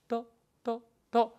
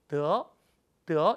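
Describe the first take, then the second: First: The syllable is said light, with neutral tone. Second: The syllable is said with a rising tone. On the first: It is a particle linking a complement. "경서로 읽어줍니다" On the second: It is a verb meaning to obtain. "이성으로 읽어줍니다"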